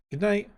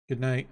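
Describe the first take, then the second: First: Princess bidding good night. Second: Reply evenly, dropping the pitch; ogre answering good night. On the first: Fiona bids good night. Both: A narrator's reading.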